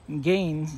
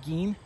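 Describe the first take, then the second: First: Gein said with a hard g and a long a, like gain. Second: Gein said with a hard g and a long ee, like green without the r; Gein said as Geen. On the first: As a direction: say Gein to rhyme with rain, hard g. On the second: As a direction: say Gein to rhyme with seen, hard g. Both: Shown as a demonstration. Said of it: "I think it's Gein".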